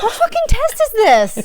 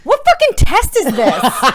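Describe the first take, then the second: First: Higher pitched, laughing repeat; amused repeat of the outburst; higher laughing disbelief. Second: Slow incredulous laugh through it; amused outrage at a silly test; laughing disbelief. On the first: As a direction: squeak it out through laughter. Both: Real, not acted.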